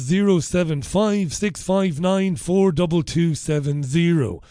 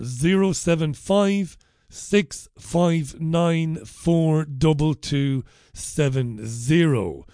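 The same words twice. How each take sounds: First: It is read at normal speed. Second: It is read slowly.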